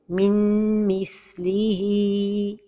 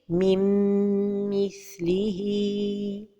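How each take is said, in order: First: The n is pronounced clearly. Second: The n merges with a held nasal hum. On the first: The speaker calls it wrong. "Un autre exemple de- d'erreur est de prononcer an-noun" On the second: The speaker calls it right. "la prononciation correcte est"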